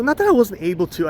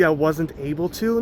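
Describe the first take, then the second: First: "I" punched higher and louder; stress on I. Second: Said in the usual way. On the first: Real, not acted. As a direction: hit the word "I" to correct yourself.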